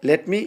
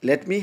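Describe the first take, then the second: No difference in how they are said.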